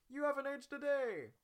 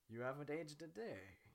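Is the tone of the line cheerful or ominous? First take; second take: cheerful; ominous. First: The line is said in a light, cheerful tone. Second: The line is said in a dark, ominous tone. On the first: It is a friendly, joking compliment. The speaker calls it right. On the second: Something sinister is keeping him young. The speaker calls it wrong.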